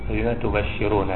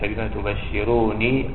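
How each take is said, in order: First: The last word ends with 'na', an open vowel. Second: The last word ends with a long 'ee' vowel. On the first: The speaker calls it right. "النون مفتوحة" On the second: The speaker calls it wrong. "يعني على السنية يا المتكلم"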